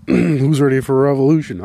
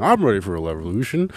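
First: Mob leader. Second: Said in the usual way. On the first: Pretend. Rallying a mock revolution.

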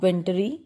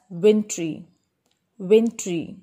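First: "wintry" in three syllables, WIN-duh-ree; wrong pronunciation. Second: "wintry" as WIN-tree; correct two syllables. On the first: Teacher warning learners off three-syllable wintry. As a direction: say "wintry" with an extra middle vowel. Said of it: "It's not". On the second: Teacher correcting learners, wintry as WIN-tree. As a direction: say "wintry" with no middle vowel. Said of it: "it is pronounced as". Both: Shown as a demonstration.

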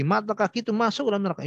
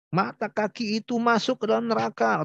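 First: Brisk and stern, pitched up; stern fast warning. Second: Raised warning voice. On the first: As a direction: snap out the warning quickly. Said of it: "Ini sangat tegas sekali". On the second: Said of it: "dengan suara yang tinggi". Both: Retold or imitated.

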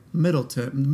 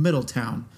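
First: Middleton said with a clipped "-ton" ending; Middleton, second syllable a quick "tun". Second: Middletown with a full "town" ending; Middletown, last syllable rhymes with "down". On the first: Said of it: "they would say Middleton". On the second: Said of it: "Middletown instead of Middleton". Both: Shown as a demonstration.

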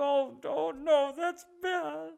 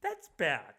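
First: High, drawn-out mock wail; hammed-up weepy moan; mock crying. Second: Softly said, barely bothered mock objection; quiet and perfunctory; mild half-hearted disapproval. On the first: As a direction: imitate him tearfully lamenting, slowly. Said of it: "Crying, dude". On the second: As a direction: imitate a token, unbothered reproach. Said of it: "But then you bring up Nazis".

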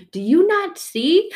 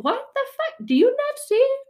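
First: Pleading question. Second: Much higher, loud, fed-up cry; hammed-up furious plea; exasperated outburst. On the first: Acted. Exasperated plea to God. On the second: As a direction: yell it at heaven in frustration. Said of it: "We're like".

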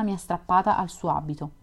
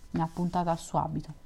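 First: Said in the usual way. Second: A quick, slightly softer corrected reading; corrected reread. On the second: Real, not acted. Reader fixing the misread word, quick corrected reread. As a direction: reread the line right, quickly and a bit softer. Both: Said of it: "non strappata, scusate".

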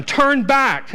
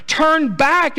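First: High, loud command; Naomi pleading. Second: Very high, loud rising command; Naomi, even more urgent. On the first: Naomi telling her daughters-in-law to turn back, loud command. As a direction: send them away firmly. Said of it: "But Naomi said". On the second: Naomi for the third time telling them to turn back, very high loud plea. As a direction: plead harder, third time. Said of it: "She says again for the third time". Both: Acted.

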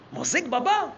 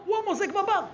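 First: "מוזג בבר" lifted at the end as a question; questioning echo. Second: High-pitched reveal, lightly astonished; surprised discovery. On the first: Storyteller echoing the brothers' doubt, "מוזג בבר" as a rising question. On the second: Storyteller revealing the brother pours drinks, surprised discovery. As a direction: deliver the finding high, as a statement. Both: Acted.

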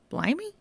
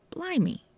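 First: High questioning echo; puzzled echo. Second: High awed gasp of a word; amazed. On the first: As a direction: toss the word back, baffled. Johnny echoes, puzzled. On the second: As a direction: breathe it out in awe. Constable amazed at rare record. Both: Acted.

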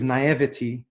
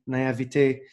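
First: Naivety said as "nai-vuh-tee", English ending; "naivety" with the plain English -ty ending; anglicised "naivety". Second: Naivete said the French way, "nah-eev-TAY"; "naivete" with a French -té ending; self-correcting to the French "naivete". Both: Shown as a demonstration.

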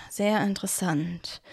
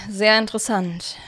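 First: Sehr interessant murmured much softer, to himself. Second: Said in the usual way. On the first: A narrator's reading. Cornelius mulls over the siblings' tale, murmuring to himself. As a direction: mumble sehr interessant under your breath. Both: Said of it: "murmelte Cornelius".

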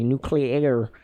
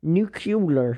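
First: "nuclear" as noo-klee-AIR; correct pronunciation. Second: "nuclear" echoed as noo-KYOO-ler; mock mispronunciation. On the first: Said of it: "That's how you pronounce it correctly". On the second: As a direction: parrot "nuclear" wrongly as "nucular". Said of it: "There ain't no extra U in nuclear". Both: Shown as a demonstration.

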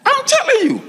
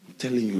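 First: Very high, exclaiming insistence; high emphatic cry. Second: Low, soft, settled repeat; quiet aside. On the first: Preacher insists to congregation the story is true, high emphatic cry. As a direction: cry it out at the top of the voice. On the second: Preacher confirms the story to congregation, low quiet aside. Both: Real, not acted.

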